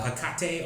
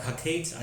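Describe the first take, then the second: First: "Hekate" said huh-KAH-tay; three-syllable "Hekate", huh-KAH-tay; unsure pronunciation. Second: "Hekate" said huh-KAYT; "Hekate" ending as in the name Kate, huh-KAYT; alternative pronunciation. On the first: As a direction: say "Hekate" with an AH middle and a final TAY. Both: Shown as a demonstration. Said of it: "I don't know how to, how to say it".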